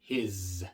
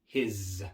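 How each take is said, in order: First: The final s is a voiced buzz. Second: The same.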